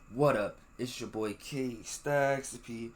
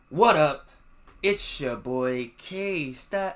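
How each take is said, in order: First: It is said in a lower, quieter voice. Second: It is said loudly and excitedly. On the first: The speaker calls it right. "Let me lower my voice" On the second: The speaker calls it wrong. "I feel like I was really loud"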